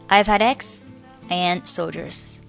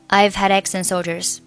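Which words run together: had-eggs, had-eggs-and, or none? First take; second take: had-eggs; had-eggs-and. First: Had links to eggs, but and stands apart. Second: Had, eggs and and run together as one chunk. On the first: "我选择这个had 和eggs 连读，我and 不和前面的x 连读" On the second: "如果你要选择had eggs and 三个单词连读，那就读成"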